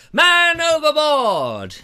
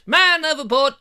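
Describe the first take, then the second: First: Slow, higher, louder pirate cry; man overboard shout. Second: Higher, louder quick alarm cry; man overboard shout. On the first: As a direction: drag out the alarm call. First comic cry. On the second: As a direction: shout it out rising. Repeated comic cry. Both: Pretend.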